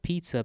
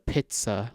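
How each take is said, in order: First: The first syllable does not sound like 'pit'. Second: The first syllable sounds like 'pit' in armpit. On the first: The speaker calls it wrong. "Not pizza" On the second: The speaker calls it right. "Like armpit"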